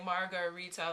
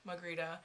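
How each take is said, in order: First: Every syllable of the name is pronounced. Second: A syllable is dropped from the name. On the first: This is the speaker's proper name. "they don't call me Margarita" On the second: This is what the brothers call her. "they don't say all the syllables"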